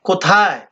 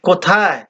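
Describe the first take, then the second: No difference in how they are said.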